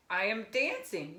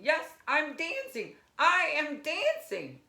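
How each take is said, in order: First: Louder, lifted joyful call; joyful cry. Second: Much higher, loud jubilant shout; ecstatic cry. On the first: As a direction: announce it, delighted. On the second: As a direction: shout it out, overjoyed. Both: Acted. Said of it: "Gerald cried".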